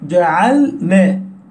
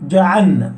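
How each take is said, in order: First: The lam is held still and clearly heard. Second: The lam is swallowed into the following nun. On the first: The speaker calls it right. "واحرص على السكون في جعلنا، أي سكون اللام" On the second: The speaker calls it wrong. "إن لم تنتبه قلت جعلنا... تضغم اللام في النون وأنت لا تدري"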